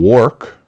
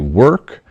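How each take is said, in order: First: The vowel follows the 'or' spelling. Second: The vowel does not follow the 'or' spelling. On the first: The speaker calls it wrong. "They get into a bad habit of saying work" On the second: The speaker calls it right. "when it's actually work"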